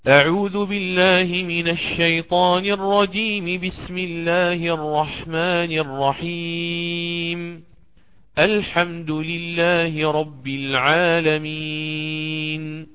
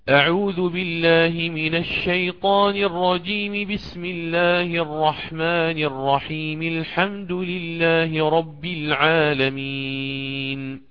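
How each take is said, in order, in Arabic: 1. وصل الجملتين الأوليين، ثم وقف للتنفس. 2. وصل الجمل الثلاث دون وقف. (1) "وصل الأول بالثاني وقطع الثالث" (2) "وصل الجميع"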